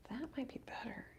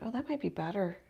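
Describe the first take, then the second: First: Hushed breathy whisper. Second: Said in the usual way. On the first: Real, not acted. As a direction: whisper it under your breath. Repeats her judgement, whispered.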